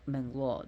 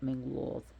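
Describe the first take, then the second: First: The name ends with a plain d sound. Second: The name ends with a soft th sound. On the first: The speaker calls it wrong. "not Mengloth" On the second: The speaker calls it right. "but Mengloth"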